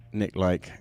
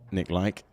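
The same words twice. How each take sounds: First: The surname rhymes with the word bike. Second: The same.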